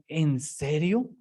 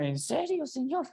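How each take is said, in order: First: Very slow, drawn-out "¿En serio?"; slow disbelief. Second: High, disbelieving "¿En serio, señor?"; incredulous. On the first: Preacher pondering the verse aloud, slow and doubtful. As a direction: stretch it out slowly, in mock disbelief. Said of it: "y uno dice". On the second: Preacher retelling his reaction to the verse, high and disbelieving. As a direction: ask it high in open disbelief. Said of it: "yo cuando lo leía". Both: Retold or imitated.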